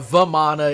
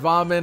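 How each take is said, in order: First: The name ends with a final vowel sound. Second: The name ends without a final vowel sound. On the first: The speaker calls it wrong. "it wouldn't be uh, Vamana" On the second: The speaker calls it right. "you don't pronounce the A"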